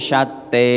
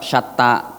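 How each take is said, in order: First: The final vowel is shifted to an 'eh' sound. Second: The final vowel is an open 'ah' sound.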